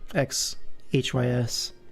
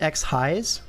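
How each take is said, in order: First: Each letter is said separately. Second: The last part is said as one word. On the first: "Or is it acronym kind of thing?" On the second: "Is that how you pronounce it?"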